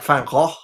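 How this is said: The name is said with a Dutch pronunciation. "a Dutch person would say something more like"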